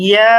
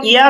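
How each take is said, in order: First: "yeah" drawn out long; one-alif stretch. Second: Said in the usual way. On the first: Shown as a demonstration. Teacher answering own question, "yeah" held long. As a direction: hold the end vowel of "yeah". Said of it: "এক আলিফ পরিমাণ টান". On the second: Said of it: "শুধু টেনে উচ্চারণ করতে হবে".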